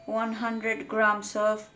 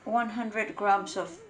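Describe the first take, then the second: No difference in how they are said.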